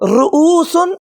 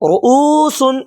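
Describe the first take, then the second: First: The r sound is light and thin. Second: The r sound is heavy and full. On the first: The speaker calls it wrong. "ये तरीका बिल्कुल गलत है" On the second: The speaker calls it right. "इसीलिए हमने रा को पुर करके पढ़ा"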